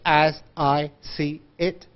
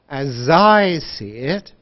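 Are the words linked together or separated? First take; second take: separated; linked. First: Each word is said separately, not linked. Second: The words run smoothly together, linked. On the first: The speaker calls it wrong. "we don't speak like this" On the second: The speaker calls it right. "We say as I see it"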